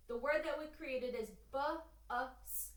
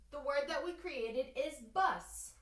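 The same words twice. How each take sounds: First: "bu-us" stretched slowly, each sound drawn out; sounding out words. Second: Said in the usual way. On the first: Shown as a demonstration. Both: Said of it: "I'm going to sound out the word".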